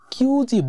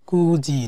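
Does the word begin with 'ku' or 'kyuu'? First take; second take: kyuu; ku. First: The word begins with a long 'kyuu' sound. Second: The word begins with a short 'ku' sound. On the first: The speaker calls it wrong. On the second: The speaker calls it right.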